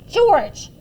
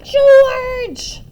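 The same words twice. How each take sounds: First: Loud, raised-pitch mother's reprimand; sharp call from a cross mom; scolding yell. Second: Put-on piercing, very loud old-woman screech; shrieking summons from an angry mother; high screech. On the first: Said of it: "she yelled". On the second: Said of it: "a high voice screeched". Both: A narrator's reading.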